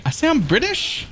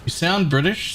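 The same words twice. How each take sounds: First: Much higher, disbelieving question; incredulous. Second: Said in the usual way. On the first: Real, not acted. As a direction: echo it back in disbelief. Incredulous echo of chat comment.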